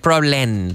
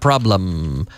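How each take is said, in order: First: The final sound is said with lips open. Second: The final sound is said with lips closed. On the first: The speaker calls it wrong. "We don't say problem" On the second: The speaker calls it right. "I'm closing the lips with the letter M"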